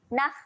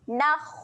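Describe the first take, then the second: First: The final kha sounds light, without rounded lips. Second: The final kha sounds heavy, with rounded lips. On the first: The speaker calls it wrong. "Kalau kita tak muncung, dia cenderung bunyi nakh" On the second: The speaker calls it right. "kita kena muncungkan sedikit walaupun dia mati"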